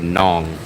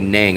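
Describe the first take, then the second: First: The vowel rhymes with Kong. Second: The vowel does not rhyme with Kong. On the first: Locals say it this way. "they say Nong. Like rhymes with Kong" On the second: Other people say it this way. "They don't say Nang"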